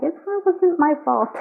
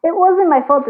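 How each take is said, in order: First: Mock whiny quote. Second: Louder mock whine of it wasn't my fault; sarcastic imitation of the ex's excuse; mocking their excuse. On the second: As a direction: throw their excuse back, louder and higher. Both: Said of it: "is what they're saying".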